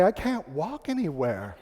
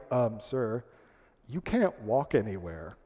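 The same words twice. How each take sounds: First: Slow, rueful admission; retold admission of defeat. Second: Low, soft, careful correction; hesitant hotel clerks. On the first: Guest returning to the clerks, slow admission of defeat. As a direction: draw out the concession slowly. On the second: Retold or imitated. Clerks letting a naive guest down, hesitant and low. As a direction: break it gently, pitched down. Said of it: "And they're like".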